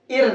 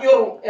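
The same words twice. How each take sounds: First: "इर" as a light, clean "ir"; thin Ra. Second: "इर" thickened with a rounded glide, "yor"; wrongly heavy Ra. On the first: Teacher modelling the correct reading, thin Ra. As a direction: keep the R of "इर" thin. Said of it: "बारीक करके पढ़ेंगे". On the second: Teacher showing what not to read, heavy Ra. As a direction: round out "इर" heavily. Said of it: "ऐसे नहीं पढ़ेंगे". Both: Shown as a demonstration.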